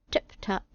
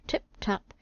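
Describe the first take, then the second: First: Breathy whispered tip-tap, barely voiced; whispered footsteps. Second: The second "tip-tap" whispered, a touch softer; whispered footsteps. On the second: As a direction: whisper "tip-tap" again like creeping steps. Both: A narrator's reading. Soft footsteps at the door.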